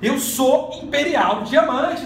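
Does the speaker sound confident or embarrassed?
confident. It is said firmly, with conviction. The speaker truly believes it. The speaker calls it right. "Ele começou a acreditar"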